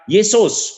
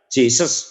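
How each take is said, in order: First: The name begins with a Y sound. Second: The name begins with a J sound. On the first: This is the Indonesian form of the name. "Sekarang kita Yesus" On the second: This is the English form of the name. "Sebenarnya kalau Inggris ya Jesus"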